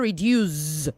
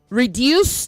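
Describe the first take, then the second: First: The middle consonant is a buzzing z sound. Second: The middle consonant is a hissing s sound. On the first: The speaker calls it wrong. "not z" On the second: The speaker calls it right. "It is s"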